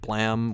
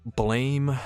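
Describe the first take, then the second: First: The vowel sounds like the one in 'blam'. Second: The vowel sounds like the one in 'blame'.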